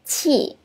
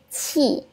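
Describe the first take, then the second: Both takes have the same delivery.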